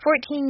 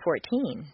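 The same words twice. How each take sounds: First: Number and teen merge under one stress. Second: The teen part carries its own stress. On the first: "In longer phrases, the number plus teen becomes one word" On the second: "In short phrases, teen can be thought of as a separate word in terms of intonation"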